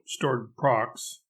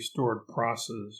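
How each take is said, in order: First: The last word ends with a k-s sound. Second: The last word ends with an s-s sound. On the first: The speaker calls it right. "rhymes with bored crocs, as in crocodiles" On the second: The speaker calls it wrong. "would sound like you had a lisp"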